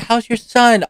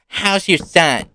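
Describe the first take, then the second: First: It is asked in a warm, caring tone. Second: It is asked in a moody, cold tone.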